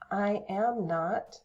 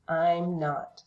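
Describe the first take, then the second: First: Each word is said separately and in full. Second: The first two words merge into one syllable. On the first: "I am not becomes" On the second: "becomes I'm not"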